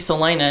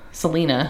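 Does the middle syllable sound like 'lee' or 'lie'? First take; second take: lie; lee. First: The middle syllable sounds like 'lie'. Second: The middle syllable sounds like 'lee'. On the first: The name is said the English way, not the Spanish way. The speaker calls it right. "we're getting further away from that. That influence, and so it would be Salina" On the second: The name is said the Spanish way. The speaker calls it wrong. "instead of"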